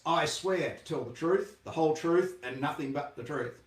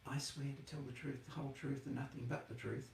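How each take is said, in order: First: It is said in a big, loud voice. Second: It is said in a quiet, timid voice. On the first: The witness sounds confident and professional. The speaker calls it right. "You say it in a big loud voice" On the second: The witness sounds intimidated. The speaker calls it wrong. "But you do not say it"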